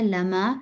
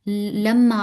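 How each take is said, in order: First: The m sound is short and single. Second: The m sound is held long and doubled. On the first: The speaker calls it right. "यहाँ पे है लमा" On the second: The speaker calls it wrong. "लम्मा आपने पढ़ा"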